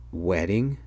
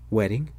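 First: Drawn-out "Wedding" with a slow rise; dawning realization. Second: Short questioning rise on "Wedding"; mild disbelief. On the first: Son realizing what he had just said, understated dawning surprise. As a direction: stretch "Wedding" into a question as it sinks in. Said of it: "Then I realized what I had just said". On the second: Dad reacting as if his son had gone crazy, mild disbelief. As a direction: ask "Wedding" quickly, lifting at the end, mildly taken aback. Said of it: "looked at me as if I had gone crazy". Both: A narrator's reading.

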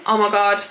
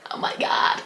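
First: Said in the usual way. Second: Hushed, whispered amazement; awed whisper. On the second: Real, not acted. Vlogger unwrapping a festival skirt, awed whisper. Repeats reaction in hushed awe.

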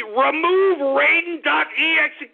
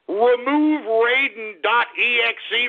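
First: Higher, pushier repeat of Raiden dot E X E; exasperated repeat. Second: Said in the usual way. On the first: Real, not acted. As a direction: say it again, losing patience. Repeats command, escalating.

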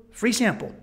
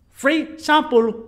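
First: Said in the usual way. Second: Put-on slow, high, loud Colombian-accented "Free sample"; mimicked Colombian accent. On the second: Tourist quoting hustler back, mimicked Colombian accent. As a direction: mimic the Colombian accent, stretching both words. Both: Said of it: "You said free sample".

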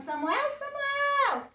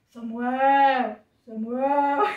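First: High, slow, drawn-out name call; singsong summons held long. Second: Loud, booming man's voice; put-on mighty divine voice; voice of God. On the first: Acted. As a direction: call out as if from afar. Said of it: "ele ouviu uma voz chamando". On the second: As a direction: call the name strong and sustained. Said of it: "Daí vamos fazer a voz de Deus".

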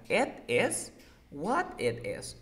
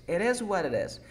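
First: Slow "it is what it is", each word apart. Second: "It is what it is" as "eres wareres", higher; linked. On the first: Teacher showing a student the words, "it is what it is" slowly separated. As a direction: keep the ts in "it" and "what" unlinked. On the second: Teacher showing the joined form, "It is what it is" linked with taps. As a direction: run "It is what it is" together, every t tapped. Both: Shown as a demonstration.

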